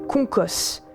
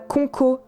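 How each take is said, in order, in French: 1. Le nom se termine par un son S. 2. Le nom se termine par une voyelle. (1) "mais Concos" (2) "On ne dit pas Conco"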